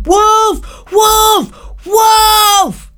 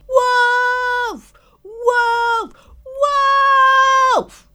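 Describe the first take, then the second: First: High, loud, crying scream; terrified scream. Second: Practice screaming. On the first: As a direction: scream for your life down the mountain. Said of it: "he screamed". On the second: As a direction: try out the scream half to yourself. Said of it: "he practiced screaming". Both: Acted.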